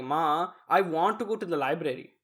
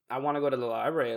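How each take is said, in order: First: Deliberate Desi-accented English; English line in a careful Urdu accent. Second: Said in the usual way. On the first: Shown as a demonstration. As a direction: put an Urdu accent on "library". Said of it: "That would be correct". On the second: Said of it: "if I wanted to say".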